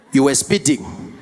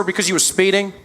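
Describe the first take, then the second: First: Slow, lower Metro cop imitation; South African policeman. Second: Lightly voiced American traffic cop; American policeman. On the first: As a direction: announce the offence slowly as a South African officer. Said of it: "the Metro Police comes there". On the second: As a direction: explain the stop as an American officer. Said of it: "Policeman walked up to my window".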